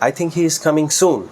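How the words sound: The word soon gets the stress. The quickness of the arrival matters most. "সুনের উপরে stress দেই"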